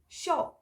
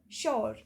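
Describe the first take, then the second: First: The r sound at the end is dropped. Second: The r sound at the end is pronounced. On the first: This is how Western speakers say it. "They pronounce it shaw" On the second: This is how Indian speakers say it. "U R E is giving R sound. So this will become sure"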